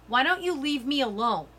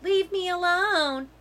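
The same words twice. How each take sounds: First: Said in the usual way. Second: Higher, slow mocking whine; whiny fakey voice mocking the narrator; whiny fakey mimic. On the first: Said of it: "as if that's how I sounded". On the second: A narrator's reading. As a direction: mimic her like a spoiled brat. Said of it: "Natalie says in a whiny, fakey voice".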